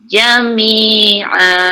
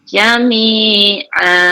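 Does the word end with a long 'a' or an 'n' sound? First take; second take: long a; long a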